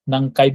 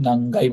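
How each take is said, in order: First: "নাংকাই" with k, nan-kai; K form. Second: "নাংগাই" with g, nan-gai; G form. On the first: Teacher showing what was not said, "নাংকাই" with k. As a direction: sound a clear k in "নাংকাই". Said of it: "নাংকাই বললাম না কিন্তু". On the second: Teacher showing how to ask which floor, "নাংগাই" with g. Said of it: "নাংগাই বলেছি". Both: Shown as a demonstration.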